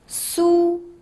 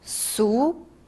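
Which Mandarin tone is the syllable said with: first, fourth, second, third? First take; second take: first; second. First: The pitch stays high and level. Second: The pitch rises from middle to high.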